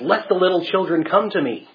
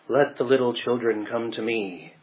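First: It is said sharply in a stern, firm voice. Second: It is said quietly in a soft, gentle voice. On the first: The speaker is indignant and displeased. The speaker calls it right. "much more riled than that and probably sternly said" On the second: The speaker is calm and gentle. The speaker calls it wrong. "very quietly in a soft-spoken voice saying"

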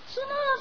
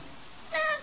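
First: It is shouted in a full, loud voice. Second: It is said in a small, thin voice. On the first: Someone is crying out for help. "Dapat sumigaw siya" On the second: A tiny statue is crying out for help. "Di ba maliit yung boses nun?"

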